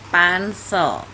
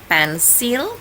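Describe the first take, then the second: First: It is pronounced the English way. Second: It is pronounced the Indonesian way. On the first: The speaker calls it right. "tapi pencil" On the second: The speaker calls it wrong. "bukannya pensil"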